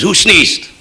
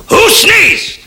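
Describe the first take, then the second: First: Said in the usual way. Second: Very high, louder shriek of a question; furious shout. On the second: Acted. Kosygin demands an answer from troops, furious high shout. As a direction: explode at the silent troops, pitch leaping up.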